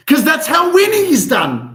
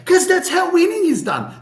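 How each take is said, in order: First: Loud, high fired-up motivational catchphrase; Danilo's catchphrase. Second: High, loud mock tough-guy boxer voice; Sylvester Stallone voice. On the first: Retold or imitated. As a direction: belt it out like a pumped-up coach rallying the room. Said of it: "Danilo would say". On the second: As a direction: ham up a movie fighter giving a pep talk. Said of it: "Sylvester Stallone".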